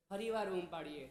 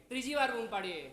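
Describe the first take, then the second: First: Said in the usual way. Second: A step more insistent; changed, raised tone. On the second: Shown as a demonstration. Monk showing how repeated calls upstairs change, raised tone. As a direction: lift the voice for the third call. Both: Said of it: "tone બદલાય કે એનો tone હોય આમ?".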